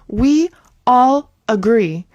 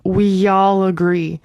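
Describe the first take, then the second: First: The words are said separately without a linking sound. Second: A y sound links 'we' into 'all'. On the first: The speaker calls it wrong. "It's not like we all agree" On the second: The speaker calls it right. "We're adding that Y"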